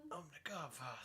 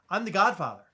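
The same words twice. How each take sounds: First: Very hushed, strained Godfather impression; badly attempted mobster voice, barely above a murmur. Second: Said in the usual way. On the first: Uncle trying to play the film boss, strained Godfather impression. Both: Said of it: "I, see, I can't do it".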